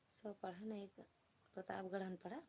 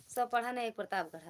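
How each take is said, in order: First: Soft, halting attempt at a saying; unsure recall. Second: Saying recited firmly in one go; confident recital. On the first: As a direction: murmur it tentatively, trailing into a question. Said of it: "पता ना ऐसे कैसे कुछ बोलते हैं". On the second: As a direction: recite it like you have got it right. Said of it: "हाँ ऐसे है". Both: Real, not acted.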